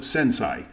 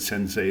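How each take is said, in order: First: The second syllable sounds like 'sai'. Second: The second syllable sounds like 'say'. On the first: The speaker calls it wrong. "the A is pronounced ah" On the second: The speaker calls it right. "the correct pronunciation with the E"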